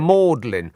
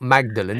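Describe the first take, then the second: First: The name is shortened to two syllables. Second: The name is said in full with three syllables. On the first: The speaker calls it right. "It's Magdalen" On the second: The speaker calls it wrong. "It's not Magdalen"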